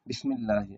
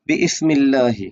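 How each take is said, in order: First: No extra vowel is sounded before the s. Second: An extra vowel is sounded before the s. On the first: The speaker calls it right. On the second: The speaker calls it wrong.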